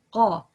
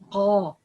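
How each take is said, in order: First: It starts with a hard stop like qaf. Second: The same.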